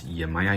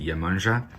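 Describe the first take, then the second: First: The name ends in a plain 'aya' sound. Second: The name ends in a nasal 'anja' sound. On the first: This is the common way many people say it. "A lot of people uh, pronounce Yemaya" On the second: This is the Portuguese way to say it. "In Portuguese, you pronounce it Iemanjá"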